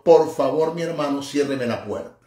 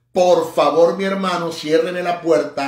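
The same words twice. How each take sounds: First: Said in the usual way. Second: Interpretado con fuerza y expresión; expressive interpreting. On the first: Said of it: "Él te está diciendo". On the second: Shown as a demonstration. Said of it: "ahí estoy interpretando, o sea, expresando, vociferando".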